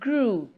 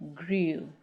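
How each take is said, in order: First: The vowel is said without a y glide. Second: The vowel is said with a y glide. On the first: The speaker calls it right. "E W coming after L or R, we do not pronounce the sound ye" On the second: The speaker calls it wrong.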